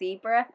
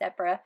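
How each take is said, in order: First: It is said the American way. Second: It is said the British way.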